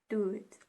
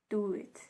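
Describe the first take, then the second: Both takes have the same delivery.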